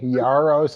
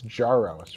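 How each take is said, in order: First: The name begins with a soft Y sound. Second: The name begins with a hard J sound. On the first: The speaker calls it wrong. "you've been softening the J" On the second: The speaker calls it right. "it's Jaros"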